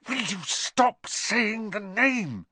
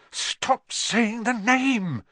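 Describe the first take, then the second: First: High, slow, exasperated hiss. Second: High, drawn-out frightened plea; terrified whisper. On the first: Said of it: "Ron hissed". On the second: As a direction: beg them in a scared, strained stage whisper. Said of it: "in a terrified whisper". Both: A narrator's reading.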